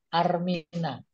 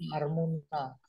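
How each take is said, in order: First: The vowel after the m is i. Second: The vowel after the m is u. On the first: This is the form commonly used in pilgrimage rites. The speaker calls it wrong. "dalam konteks manasik itu Armina" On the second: This is the form matching the original Arabic. The speaker calls it right. "Saya pernah minta ganti, Jangan Armin, Armuna"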